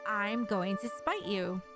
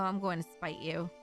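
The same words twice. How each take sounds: First: It is shouted loudly, with force. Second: It is said quietly, without force.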